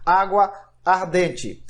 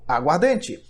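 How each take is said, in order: First: The two words are said separately, each complete. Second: The two words fuse, losing a vowel. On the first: The speaker calls it wrong. "Eu não digo água ardente" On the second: The speaker calls it right. "eu digo aguardente"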